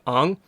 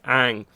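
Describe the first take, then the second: First: The name is said with a traditional vowel. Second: The name is said with an anglicized vowel.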